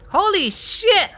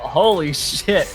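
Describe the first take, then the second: First: It is said in Bonnie's character voice. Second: It is said in the player's own voice.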